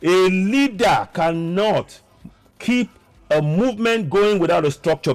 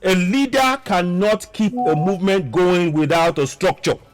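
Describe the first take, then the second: First: It is said slowly and deliberately. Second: It is said at normal speed.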